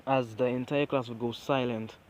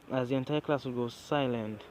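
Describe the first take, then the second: No difference in how they are said.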